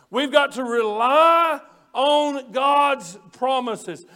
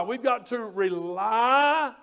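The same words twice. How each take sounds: First: Slow, weighted rely on God's promises; deliberate slow stress on rely. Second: Slow, drawn-out rely hit hard; rely stretched slow for emphasis; stress on rely. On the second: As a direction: lean on the word rely and stretch it. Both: Shown as a demonstration. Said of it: "R E L Y".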